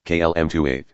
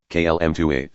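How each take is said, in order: Both takes have the same delivery.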